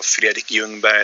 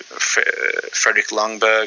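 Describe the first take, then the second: First: The name is pronounced the Swedish way. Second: The name is pronounced the English way.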